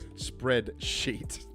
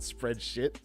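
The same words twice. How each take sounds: First: The last syllable sounds like "sheet" with a long vowel. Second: The last syllable sounds like "shit" with a short vowel. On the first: The speaker calls it right. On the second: The speaker calls it wrong. "not spreadsheet. Let's try not to spread too much shit today"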